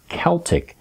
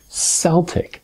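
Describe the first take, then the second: First: The word begins with a hard K sound. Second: The word begins with a soft S sound. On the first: The speaker calls it right. "the proper pronunciation is Celtic" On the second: The speaker calls it wrong. "not Celtic. It's not a soft C"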